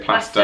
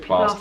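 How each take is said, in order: First: It is said in a northern English accent. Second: It is said in a southern English accent. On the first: "if you're northern, you'll say plaster" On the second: "Southern, you'll say plaster"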